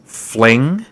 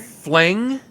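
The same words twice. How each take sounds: First: "Fling?" shouted much louder, rising. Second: "Fling?" shouted higher and louder, rising. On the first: Ex-lover hurt by the word fling, shouting it back. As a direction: bark the word back in outrage. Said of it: "There's no need to shout". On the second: Ex-lover repeating fling in loud, high disbelief. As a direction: yell it back, even more wounded. Repeats the word, more outraged. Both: Acted.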